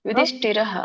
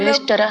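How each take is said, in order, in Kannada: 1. ಈ ಪದ ಕೊನೆಯಲ್ಲಿ ಉಸಿರು h ಧ್ವನಿಯೊಂದಿಗೆ ಮುಗಿಯುತ್ತದೆ. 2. ಈ ಪದ ಸರಳವಾಗಿ ಮುಗಿಯುತ್ತದೆ, ಕೊನೆಯಲ್ಲಿ h ಇಲ್ಲ. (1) "ರ ಆದ್ಮೇಲೆ ವಿಸರ್ಗ ಬರುತ್ತಲ್ಲ, ಅಲ್ಲಿ ಹ ಅಂತ ಉಚ್ಚಾರಣೆ ಮಾಡ್ಬೇಕು" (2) "ಯುಧಿಷ್ಠಿರ ಅಲ್ಲ"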